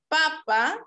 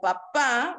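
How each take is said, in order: First: The stress is on the first syllable. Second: The stress is on the second syllable. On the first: "si el acento es en el primer fonema" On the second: "si es en el segundo"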